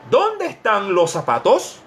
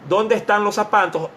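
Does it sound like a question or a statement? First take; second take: question; statement. First: It is said with a questioning intonation. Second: It is said flatly, like a statement. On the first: It is read as a real question. The speaker calls it right. "con el signo" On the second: It is read as a declaration. The speaker calls it wrong. "De ser una declaración"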